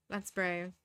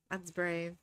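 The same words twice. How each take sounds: The two takes are said the same way.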